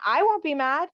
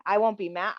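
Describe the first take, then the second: First: Emphatic reassurance. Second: Said in the usual way. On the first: Retold or imitated. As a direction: repeat "I won't be mad" higher, stressing "won't". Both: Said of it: "someone to say".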